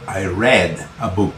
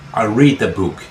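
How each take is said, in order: First: Read has a short e vowel, like red. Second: Read has a long ee vowel, like reed. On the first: The reading happened in the past. "pronunciarla como si fuese rojo, red" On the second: The reading happens now. "yo leo un libro"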